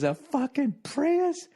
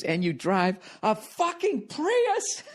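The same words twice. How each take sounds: First: High, drawn-out mock yell; high-pitched mock scornful heckle; imitated parting yell. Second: High, drawn-out mock yell; high-pitched mock outraged heckle; imitated yelling woman. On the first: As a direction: toss it out slowly in falsetto, like a parting insult. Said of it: "she threw her head back". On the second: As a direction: screech it slowly in falsetto, without real volume. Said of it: "at this point she was yelling at me".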